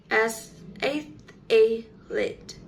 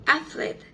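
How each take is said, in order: First: "ath-, a-lete" in three parts with an extra vowel after th; inserted vowel. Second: Said in the usual way. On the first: Shown as a demonstration. Teacher shows how some people say athlete, extra-vowel pronunciation. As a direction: say "ath-, a-lete" slowly broken up, a vowel added mid-word. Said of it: "with an extra uh sound". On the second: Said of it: "how some people pronounce".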